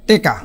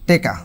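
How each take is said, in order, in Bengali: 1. প্রথম স্বরধ্বনি e হয়ে যায়: teka। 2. প্রথম স্বরধ্বনি e হয়ে যায়: teka।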